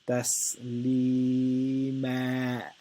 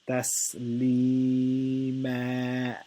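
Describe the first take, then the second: The two takes are said the same way.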